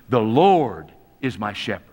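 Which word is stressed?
Lord. The stress is on the word Lord.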